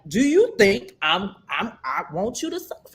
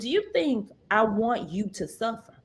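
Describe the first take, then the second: First: The question is asked in a commanding voice. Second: The question is asked in a mild voice.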